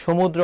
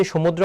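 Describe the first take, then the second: First: সমুদ্র begun with "sh", as shomudro; correct sh sound. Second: সমুদ্র begun with a hissed "s", as somudro; wrong dental s. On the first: Teacher shows what we do say, সমুদ্র with sh. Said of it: "বলি". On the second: Teacher shows the sound we never say, সমুদ্র with dental s. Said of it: "আমরা কখনো বলি না যে". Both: Shown as a demonstration.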